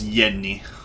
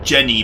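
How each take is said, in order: First: The name begins with a Y sound. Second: The name begins with a J sound.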